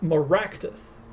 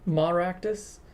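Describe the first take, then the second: First: The stress is not on the first syllable. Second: The stress is on the first syllable. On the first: The speaker calls it right. "it's more like" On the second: The speaker calls it wrong. "pronounce the ma prominently"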